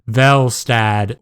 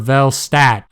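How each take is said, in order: First: The name ends with a d sound. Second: The name ends with a t sound.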